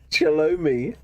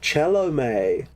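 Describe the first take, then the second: First: The name ends with an 'ee'-like vowel. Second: The name ends with an 'ay'-like vowel. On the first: The speaker calls it wrong. "I was calling it Chelomi" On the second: The speaker calls it right. "that's how you pronounce it"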